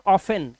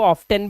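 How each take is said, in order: First: ऑफन with no T after the F; silent T. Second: ऑफ्टन with a clear T after the F; sounded T. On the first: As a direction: say ऑफन, leaving the T out. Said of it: "इसको बोलते हैं". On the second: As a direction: pronounce the T in ऑफ्टन. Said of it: "भी बोलते हैं". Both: Shown as a demonstration.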